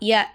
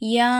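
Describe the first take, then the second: First: The vowel is short and quick. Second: The vowel is stretched extra long. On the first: The letter has only a plain short vowel mark. "ஜபர் மட்டும் வச்சா ய அப்படி சொல்லுவோமா?" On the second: A small elongation sign is written above the letter. "மூணு அலிஃபுக்கு நம்ம நீட்டி ஓதணும். எப்படி?"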